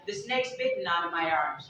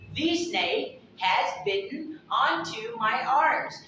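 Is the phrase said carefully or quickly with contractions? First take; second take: quickly; carefully. First: It is said fast with words contracted. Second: Every word is said fully and carefully.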